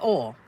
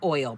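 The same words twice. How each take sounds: First: The word has a Texan pronunciation. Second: The word has a standard pronunciation. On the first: The speaker calls it wrong. "I would say oil" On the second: The speaker calls it right. "I couldn't say oil properly"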